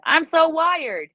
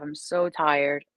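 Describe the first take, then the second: First: Much higher and louder, slow and buzzing; wired. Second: Much lower and slow, drained; exhausted. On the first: Reader demoing the highest energy score, buzzing and loud. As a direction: pop the words up like you're buzzing with energy. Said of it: "most amount of energy I can have". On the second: Reader demoing the lowest energy score, drained and slow. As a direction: sag into the words like you can barely move. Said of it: "least amount of energy I can have". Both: Shown as a demonstration.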